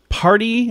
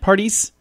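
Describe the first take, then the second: First: The name ends without an S sound. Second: The name ends with an S sound. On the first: The speaker calls it right. "I don't think you pronounce the S" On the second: The speaker calls it wrong. "Parties? I don't think you pronounce the S"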